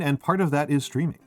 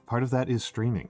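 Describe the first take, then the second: First: Said in the usual way. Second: A little softer ASMR take; soft ASMR retry. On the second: Shown as a demonstration. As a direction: ease into the ASMR voice. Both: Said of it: "I can't get the smoke in my voice".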